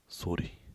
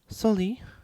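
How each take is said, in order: First: It is said in a normal voice. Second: It is said in a high, girlish voice.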